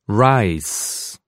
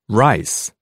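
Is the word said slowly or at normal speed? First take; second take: slowly; normal speed. First: The word is said slowly. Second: The word is said at normal speed. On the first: "First slower" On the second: "then at normal speed"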